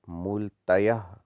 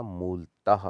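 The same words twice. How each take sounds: First: मूलतयः as slow "mool-ta-yah"; wrong added ya. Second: मूलतः as "mool-tah"; correct, no ya. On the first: Teacher showing the error, मूलतयः slow with extra ya. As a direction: stretch out मूलतयः with a ya. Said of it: "नहीं होता". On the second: Teacher correcting it, मूलतः without ya. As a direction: end मूलतः on a breathed h. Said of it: "होता है". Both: Shown as a demonstration.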